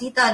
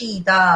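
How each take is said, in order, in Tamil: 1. வார்த்தை சாதாரண 's' ஒலியில் தொடங்குகிறது. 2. வார்த்தை 'sh' ஒலியில் தொடங்குகிறது. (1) "இது சீதா சீதா இல்ல, ராமர் சீதை கிடையாது. இது அந்த உச்சரிப்புக்கு வந்துடக்கூடாது" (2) "இது ஷீதா. ஷீதல் அப்படின்னா குளிர்ச்சி"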